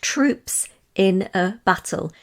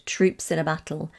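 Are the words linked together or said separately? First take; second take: separately; linked. First: Each word is said separately and distinctly. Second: The words run together into one smooth stream. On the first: The speaker calls it wrong. "you didn't say it like that, because that's, that's not how we speak" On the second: The speaker calls it right. "Running the words together"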